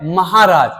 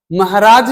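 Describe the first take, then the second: First: महाराज said "mahaaraaj", long middle vowel; correct pronunciation. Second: महाराज said "mahraaj", middle vowel shortened; wrong pronunciation. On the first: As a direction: open up the हा in महाराज. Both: Shown as a demonstration. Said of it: "महाराज नहीं होता है".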